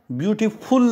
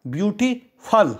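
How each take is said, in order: First: ब्यूटीफुल with full 'ful' ending; ब्यूटीफुल ending on a full 'full' sound; wrong reading. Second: ब्यूटीफल with a short 'fal' ending; ब्यूटीफल ending in a quick unstressed 'fal'; right reading. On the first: Teacher showing the wrong way to say ब्यूटीफुल. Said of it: "नहीं पढ़ेंगे". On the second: Teacher showing the right way to say ब्यूटीफल. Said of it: "इसको पढ़ेंगे हम". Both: Shown as a demonstration.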